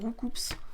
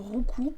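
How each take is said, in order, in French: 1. Le nom finit par un son 'ps' audible. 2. Le nom finit par une voyelle, sans 'ps'. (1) "Moi je l'appelle Roukoups" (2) "Je crois qu'on dit vraiment Roukou"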